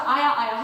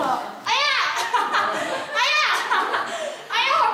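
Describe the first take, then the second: First: Said in the usual way. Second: High-pitched pretend cries of pain; exaggerated high ouch cries; fake crying yelps. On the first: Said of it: "하래요". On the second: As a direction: yelp as if being hit, badly faked for mom to hear. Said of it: "막 우는 소리 내고".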